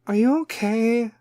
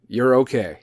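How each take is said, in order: First: High, slow mock-concerned voice; Kim K. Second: Firm, matter-of-fact, falling; stern own voice. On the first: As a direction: fake celebrity concern, high and dragged out. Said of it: "is going to be all Kim K". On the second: Shown as a demonstration. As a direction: say it bluntly, no coddling. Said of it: "I'm gonna do it for my voice".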